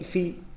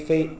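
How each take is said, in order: First: The vowel is a plain ee sound. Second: The vowel is the diphthong ei. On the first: "传统呢念飞飞，for 一飞，把韵母A 变成一" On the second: "尽管它的韵母是A，飞飞翔的飞，for A 飞"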